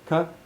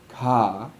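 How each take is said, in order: First: The vowel after the consonant is kept short. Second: The vowel after the consonant is drawn out long. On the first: The speaker calls it right. "Same length, same length of vowel" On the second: The speaker calls it wrong. "It's not k, ka"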